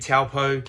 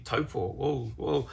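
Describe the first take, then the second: First: It is said with anglicized vowels and sounds. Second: It is said with Māori vowels and sounds. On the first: The speaker calls it wrong. "instead of saying taupō" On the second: The speaker calls it right. "to say taupō because it sounds a little bit funny"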